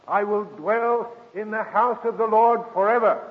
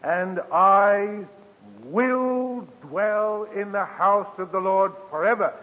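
First: Higher, fuller restatement of the verse; lifted repeat of the promise; scripture recital. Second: Slow, raised psalm line; hushed, lifted reading of the verse; scripture recital. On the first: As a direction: sing it out a second time, rising. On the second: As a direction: draw out every word like a vow. Preacher reciting psalm verse, drawn out. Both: Acted.

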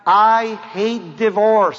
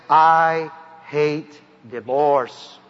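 First: Slow, weighty stress on "I hate divorce"; slow emphatic quote. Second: Very slow and lower, each word of "I hate divorce" drawn out; very slow solemn quote. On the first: Preacher quoting Malachi to the congregation, slow and weighty. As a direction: lean on "I" and stretch "divorce". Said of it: "The Bible says in Malachi". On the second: Preacher repeating God's words to the crowd, very slow and grave. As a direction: let "I hate divorce" fall heavy and slow. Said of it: "God says". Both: Shown as a demonstration.

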